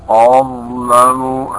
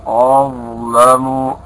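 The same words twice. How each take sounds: No difference in how they are said.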